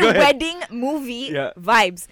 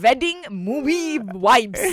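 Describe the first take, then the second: First: The w and v sounds are pronounced normally. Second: The w and v sounds are swapped. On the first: This is what was intended. The speaker calls it right. "I want to say wedding movie vibes" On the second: This is what actually came out. The speaker calls it wrong. "But instead, I said wedding movie vibes"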